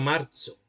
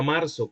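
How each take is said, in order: First: It uses an old, medieval-style middle consonant. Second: It uses a Latin American s-like middle consonant. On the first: This is how it was said in the Middle Ages. "como se decía en la, en la Edad Media" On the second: This is how Latin Americans say it. "como decimos los americanos"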